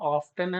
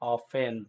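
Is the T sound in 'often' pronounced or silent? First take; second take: pronounced; silent. First: The T sound in the middle is pronounced. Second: The T sound in the middle is silent. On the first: "నేను మొన్నటి వరకు ఆఫ్టెన్ అని pronounce చేసేవాడిని" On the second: "టీ silent అయిపోతుంది"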